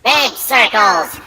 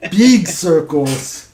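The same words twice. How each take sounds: First: Big circles drawn out slowly; slow, savoured repeat. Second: Slow, drawn-out emphasis. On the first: Friend repeating the Dalek joke, slowly savouring it. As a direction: stretch each word to milk the joke. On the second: Echoing joke slowly. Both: Pretend.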